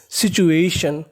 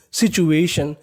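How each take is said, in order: Both takes have the same delivery.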